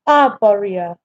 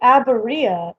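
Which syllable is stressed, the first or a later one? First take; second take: first; later. First: The stress is on the first syllable. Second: The stress is not on the first syllable. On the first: The speaker calls it right. "So the accent is on that first uh, vowel" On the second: The speaker calls it wrong. "Oh, I said it wrong?"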